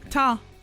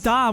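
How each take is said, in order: First: The word begins with a t sound. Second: The word begins with a d sound. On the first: The speaker calls it right. "With a T" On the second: The speaker calls it wrong. "it's not"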